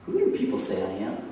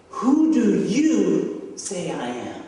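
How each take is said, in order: First: Said in the usual way. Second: Slow, loud stress on "you"; pointed question. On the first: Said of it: "Jesus asks this question". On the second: Retold or imitated. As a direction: turn the question on them, drawing out "do you". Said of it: "he turns it to them".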